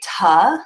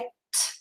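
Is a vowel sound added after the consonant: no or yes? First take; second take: yes; no. First: The consonant ends with an added uh vowel. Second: The consonant is clipped with no added vowel. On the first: The speaker calls it wrong. "I don't want to say tuh" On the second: The speaker calls it right. "I want to say t"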